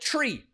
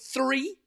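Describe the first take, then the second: First: It begins with a plain T sound. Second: It begins with a TH sound. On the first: "les Irlandais, ... ils vont dire tree" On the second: "au lieu de dire three"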